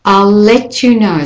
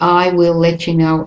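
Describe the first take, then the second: First: Will is contracted onto I as I'll. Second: Will is said as a separate full word. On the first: The speaker calls it right. "It's important to practice the contractions" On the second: The speaker calls it wrong. "they say the full word"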